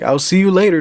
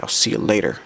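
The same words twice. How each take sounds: First: Higher, lightly acted goodbye; Jeff's farewell. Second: Understated, subdued goodbye. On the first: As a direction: call out a friendly sign-off, pitched up. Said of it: "Then Jeff is, like". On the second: Acted. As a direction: toss back the farewell with little energy. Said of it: "And then D J is like".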